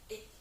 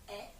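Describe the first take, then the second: First: The vowel is pronounced closed, like é. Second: The vowel is pronounced open, like è. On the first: "c'est un accent aigu, donc et" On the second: "on peut prononcer à la version l'accent grave"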